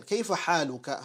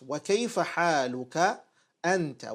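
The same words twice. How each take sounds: First: Said in the usual way. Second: Slow, drawn-out "Wa kayfa haluka", then "anta" set apart; emphatic question. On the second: Shown as a demonstration. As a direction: stretch "haluka", pause, then stress "anta". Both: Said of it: "But then he asks with emphasis".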